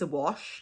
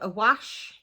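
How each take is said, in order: First: Said with a standard English pronunciation. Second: Said with a Black Country dialect pronunciation.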